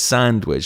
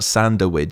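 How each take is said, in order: First: It is said with two syllables. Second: An extra vowel is added in the middle. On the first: The speaker calls it right. "it's two syllable words" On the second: The speaker calls it wrong. "You can't just throw in a uh in the middle"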